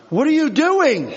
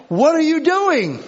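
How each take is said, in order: First: High, loud, incredulous yell at the driver; exasperated yell. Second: High, loud, incredulous yell, repeated for the congregation; exasperated yell. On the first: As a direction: yell back at the honking car behind. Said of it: "And I'm like". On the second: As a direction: replay the yell at the honking car. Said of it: "understand what I'm talking about". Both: Retold or imitated.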